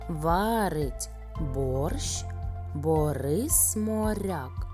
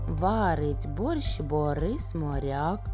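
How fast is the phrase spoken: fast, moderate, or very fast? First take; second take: moderate; very fast. First: The phrase is spoken at a moderate pace. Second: The phrase is spoken at a very fast pace.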